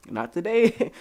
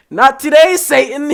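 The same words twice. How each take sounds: First: Said in the usual way. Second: High, loud, laughing; playful laughing shout; laughing mock rebuke. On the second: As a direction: laugh it off like banishing a demon.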